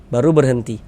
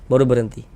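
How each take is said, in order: Both takes have the same delivery.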